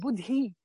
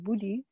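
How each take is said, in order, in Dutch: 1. De d heeft een extra zuchtje lucht. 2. De d heeft geen extra zuchtje lucht. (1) "er is een extra stootje lucht wat achter die de klank komt" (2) "zonder die H te benadrukken"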